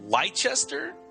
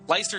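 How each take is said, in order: First: The middle 'ces' syllable is pronounced. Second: The middle 'ces' syllable is dropped. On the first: The speaker calls it wrong. "I'm going to pronounce this wrong" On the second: The speaker calls it right. "There you go"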